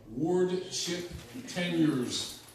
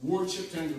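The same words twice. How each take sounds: First: Drawn out slowly for note-taking; slow dictation. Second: Said in the usual way. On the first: Shown as a demonstration. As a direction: spell it out slowly so they can write. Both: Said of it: "write that down".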